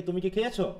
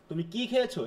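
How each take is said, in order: First: Light কি, weight on খেয়েছো; stress on খেয়েছো. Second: কি held and weighted, খেয়েছো falling away; stress on কি. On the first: Teacher offering students the second option, stress on খেয়েছো. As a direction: make খেয়েছো the word in question. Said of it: "তাহলে খেয়েছোর উপর আমার". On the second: Teacher offering students the first of two options, stress on কি. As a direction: lean on কি. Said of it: "এরকম". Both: Shown as a demonstration.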